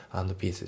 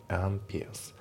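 First: アンドピース fast, full D sounded; アンドピース fully sounded. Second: アンピアス, and peace with no D; アンピアス, D swallowed; D dropped. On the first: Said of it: "アンドピースじゃなくて". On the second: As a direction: drop the D of and. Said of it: "アンドのDが抜けますね". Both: Shown as a demonstration.

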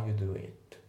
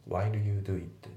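First: "while you do it" with while cut to wa; reduced while. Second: "while you do it" with a clear l in while; fully pronounced. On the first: Teacher demonstrating natural speech, reduced "while you do it". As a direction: drop the l, gliding into you in "while you do it". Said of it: "わーっていう感じで". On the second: Teacher showing learners what to avoid, full "while you do it". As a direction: sound out every word of "while you do it". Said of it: "じゃないですね". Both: Shown as a demonstration.

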